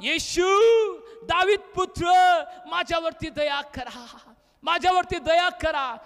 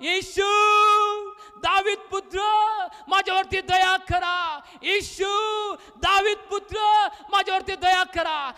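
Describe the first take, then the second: First: Calling out to Jesus for mercy; a raised, pleading call with spaced phrases; loud cry. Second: High, drawn-out shouted plea; insistent ringing cry, each phrase stretched; crying out louder. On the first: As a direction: cry out as a blind beggar, moderately loud. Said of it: "तो मोठ्यानं म्हटला". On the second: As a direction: shout for mercy over those silencing you. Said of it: "तो अधिकच ओरडला". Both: Acted.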